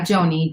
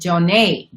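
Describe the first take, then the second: First: The name ends with an 'ee' sound. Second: The name ends with an 'ay' sound. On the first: The speaker calls it wrong. "not Joni" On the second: The speaker calls it right. "it's pronounced Jonay"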